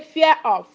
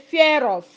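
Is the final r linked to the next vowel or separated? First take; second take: separated; linked. First: The r is dropped and the words stay separate. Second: The r is sounded and joined to the vowel. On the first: The speaker calls it wrong. "you don't say fear of" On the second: The speaker calls it right. "you say fear of"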